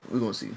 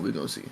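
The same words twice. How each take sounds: First: Said in the usual way. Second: Much lower we're gonna see; low teasing. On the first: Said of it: "repeated tease". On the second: Pretend. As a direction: drop low and tease it. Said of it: "lower teasing repeat".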